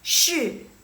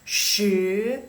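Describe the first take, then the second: First: The pitch falls from high to low. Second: The pitch rises from low to high. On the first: "dari atas nadanya tinggi terus ke rendah" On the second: "dari suaranya dari kecil ke besar"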